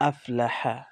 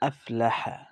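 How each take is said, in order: The two takes are said the same way.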